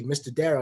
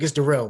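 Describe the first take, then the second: First: "Darrell" as DARE-ul; front-stress "Darrell", saying DARE-ul; mispronounced name. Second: "Darrell" as duh-RELL, louder; corrected name. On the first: Head coach greeting player, getting "Darrell" wrong as DARE-ul. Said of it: "It's Darrell, man". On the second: Player correcting head coach on "Darrell", louder duh-RELL. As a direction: put the stress on the end of "Darrell", duh-RELL. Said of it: "Hey, Mister Darrell". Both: Retold or imitated.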